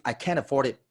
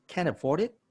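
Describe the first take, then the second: First: Said in the usual way. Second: "Can't afford it" mirrored back as a question, lifting higher to a rise on "it"; upward inflection. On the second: Shown as a demonstration. Sales trainer echoing a prospect's objection, "Can't afford it" rising like a question. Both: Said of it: "it's upward inflection like a question".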